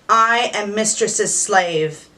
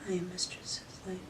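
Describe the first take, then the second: First: It is said strongly and with conviction. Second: It is said timidly and quietly, like a mouse.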